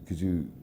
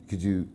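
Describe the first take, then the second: No difference in how they are said.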